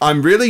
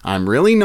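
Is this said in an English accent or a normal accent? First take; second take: English; normal. First: It is said in a put-on English accent. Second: It is said in the speaker's normal accent.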